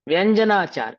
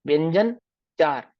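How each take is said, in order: First: It is said as one joined word. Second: It is split into two separate words. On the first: It names the discipline of correct wording. The speaker calls it right. "ऐसा शुद्ध उच्चारण होना चाहिए" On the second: It sounds like talk about four consonants. The speaker calls it wrong. "व्यंजन अलग पढ़ू चार अलग पढ़ू"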